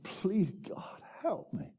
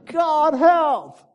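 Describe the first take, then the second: First: High, soft, small prayer; pleading. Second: Very high, loud shouted prayer; desperate cry. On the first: Preacher voicing the man's turning point, softly pleading. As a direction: plead softly, pitch lifted. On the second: Preacher acting the heart attack victim, crying to God. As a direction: shout to heaven for rescue. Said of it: "I cried to the Lord". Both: Retold or imitated.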